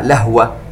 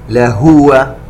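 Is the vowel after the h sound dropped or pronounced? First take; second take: dropped; pronounced. First: The h has no vowel after it. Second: The h has a clear, full u vowel. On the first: The speaker calls it wrong. "ولا نسكنها" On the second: The speaker calls it right. "يجب علينا أن نوضح الضمة ونشبعها"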